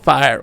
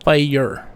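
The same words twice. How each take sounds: First: The word is said with one syllable. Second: The word is said with two syllables. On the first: The speaker calls it wrong. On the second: The speaker calls it right. "Fire is two syllables"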